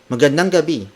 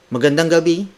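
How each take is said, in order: Both takes have the same delivery.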